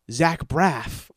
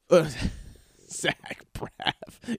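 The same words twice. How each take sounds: First: Said in the usual way. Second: Breathy laughing repeat. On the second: Shown as a demonstration. Repeating the actor's name to himself, laughing whisper. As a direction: whisper Zach Braff through a laugh.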